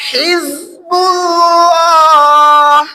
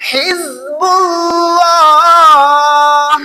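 The two takes are said the same way.

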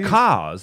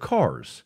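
First: It is said in a Boston accent. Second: It is said in standard American English.

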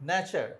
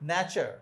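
No difference in how they are said.

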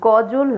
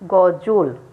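First: The second syllable has an open 'aw' vowel. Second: The second syllable has a closed 'o' vowel. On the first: The speaker calls it wrong. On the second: The speaker calls it right.

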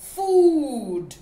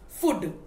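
First: The vowel is a long oo sound. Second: The vowel is a short oo sound. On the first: The speaker calls it right. "it is the long oo. So we have to call it food" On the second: The speaker calls it wrong. "children sometimes mispronounce this word as food, but it is not the short oo"

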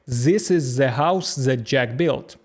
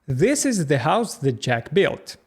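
First: The th is said as a z sound. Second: The th is said with the tongue between teeth. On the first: The speaker calls it wrong. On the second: The speaker calls it right.

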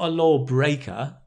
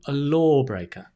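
First: The stress is on the second syllable. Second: The stress is on the first syllable. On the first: The speaker calls it wrong. "not a lawbreaker. No, the stress goes on the first syllable" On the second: The speaker calls it right. "the stress goes on the first syllable. A lawbreaker. That's it"

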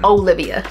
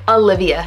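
First: The name begins with an 'oh' sound. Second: The name begins with an 'ah' sound. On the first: The speaker calls it wrong. "not Olivia" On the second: The speaker calls it right. "It's A-L-I-V-I-A. I love that. Like Olivia"

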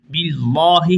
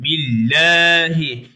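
First: The L is heavy, with a full dark a. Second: The L is light, vowel between a and e. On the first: The speaker calls it wrong. "billahi hiç değil arkadaşlar" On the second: The speaker calls it right. "Çünkü önceki harfin harekesi esre"

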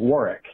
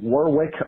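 First: The W in the middle is silent. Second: The W in the middle is pronounced. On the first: The speaker calls it right. "are actually pronounced" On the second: The speaker calls it wrong. "look like they should be pronounced"

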